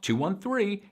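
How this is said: The pitch rises across the numbers.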